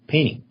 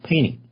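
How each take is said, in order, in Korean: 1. 이 단어는 미국식 억양으로 발음됐어요. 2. 이 단어는 미국식 억양으로 발음됐어요.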